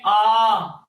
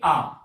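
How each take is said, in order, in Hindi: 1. स्वर को बहुत लंबे समय तक खींचा जाता है। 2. स्वर को सामान्य दीर्घ समय तक रोका जाता है।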